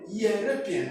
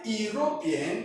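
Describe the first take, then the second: First: The word begins with a y consonant sound. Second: The word begins with a plain vowel sound. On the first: The speaker calls it right. "the right pronunciation of that word is European, European, and the yes sound is a consonant sound" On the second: The speaker calls it wrong. "you are beginning the word with a vowel E sound"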